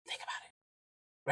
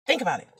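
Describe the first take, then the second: First: Slow, hushed whisper; whispered prompt. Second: Said in the usual way. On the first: Shown as a demonstration. Urging fellow drivers to reflect, whispered. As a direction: whisper it slowly, letting it sink in.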